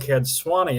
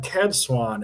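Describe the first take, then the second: First: The name is said with three syllables. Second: The name is said with two syllables. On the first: The speaker calls it right. "I heard you call her Cad Swanee" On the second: The speaker calls it wrong. "I was calling her Cad Swan"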